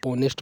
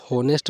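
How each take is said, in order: First: ऑनेस्ट with a silent h, starting on the vowel; correct pronunciation. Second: हॉनेस्ट with a sounded h, as many pupils say it; wrong pronunciation. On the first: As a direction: say ऑनेस्ट with no h, open o first. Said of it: "इसको ऑनेस्ट पढ़ते हैं बच्चों". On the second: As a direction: say हॉनेस्ट with a clear h at the start. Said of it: "लेकिन इसको होनेस्ट नहीं पढ़ते". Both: Shown as a demonstration.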